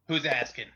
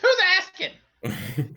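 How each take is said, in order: First: It is said in an older-sounding voice. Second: It is said in a young child's voice.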